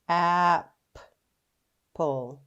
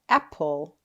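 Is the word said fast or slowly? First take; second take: slowly; fast. First: The word is said slowly, syllable by syllable. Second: The word is said quickly as one smooth unit. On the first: "Now we can sound out our word" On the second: "Say it fast"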